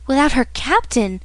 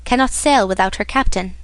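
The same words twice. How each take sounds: First: Slightly higher, startled exclamation; a young sailor's eager surprise; surprised cry. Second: Said in the usual way. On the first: A narrator's reading. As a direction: catch the words in sudden hope. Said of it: "cried Dantès". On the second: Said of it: "added the owner".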